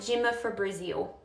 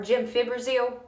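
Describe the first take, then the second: First: It is said as gem-i-fi-bri-zil, extra vowel added. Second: It is said as gem-fi-bro-zil, no extra vowel. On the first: The speaker calls it wrong. "I would call it gemifibrizil" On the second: The speaker calls it right. "this word is pronounced gemfibrozil"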